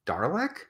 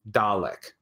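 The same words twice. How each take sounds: First: "Dalek" with an R, DAR-lek, rising like a question; questioning "Dalek" with an audible R; puzzled misreading. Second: "Dalek" said low, as DAH-lick with no R; "Dalek" as a low, plain DAH-lick; demonstrating pronunciation. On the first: Retold or imitated. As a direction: ask "Dalek" as DAR-lek, pitch climbing. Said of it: "a lot of people are like". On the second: Shown as a demonstration. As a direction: say "Dalek" as Americans read it, R-less. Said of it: "is pronounced".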